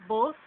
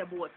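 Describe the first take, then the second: First: Said in the usual way. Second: "boat" as Jamaican "both", ending in a hard t; Jamaican pronunciation. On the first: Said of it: "In Jamaica, we would say boat". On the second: Shown as a demonstration. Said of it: "In Jamaica, we would say".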